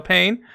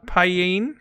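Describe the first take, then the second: First: "Paine" said as one syllable, like "pain". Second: "Paine" in two syllables, "pie-een", rising. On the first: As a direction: say "Paine" to rhyme with "rain". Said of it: "I'm not sure if I'm saying that right". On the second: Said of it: "I'm pretty sure I'm saying it wrong". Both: Shown as a demonstration.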